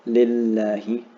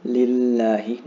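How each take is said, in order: First: Lillahi with the LL held two counts, rising; held double L. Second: Lillahi with the double L held; doubled L. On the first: Teacher repeating Lillahi, holding the shadda two counts. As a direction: stretch the LL in Lillahi for two beats. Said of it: "So hold this for two counts". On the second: Teacher modeling lillahi with a held double L for students. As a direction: press and hold the LL in lillahi. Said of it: "notice the shadda". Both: Shown as a demonstration.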